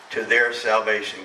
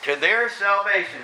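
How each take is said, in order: First: Their salvation said softly and slowly; hushed, deliberate "their salvation"; quiet, slow emphasis. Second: "To their salvation" again, higher and fuller; raised restatement. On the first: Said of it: "To their salvation. Imagine that". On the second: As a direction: lift "their salvation" up with conviction. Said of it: "Imagine that". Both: Shown as a demonstration.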